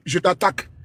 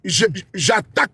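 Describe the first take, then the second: First: It is said softly and gently. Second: It is said forcefully, with impact.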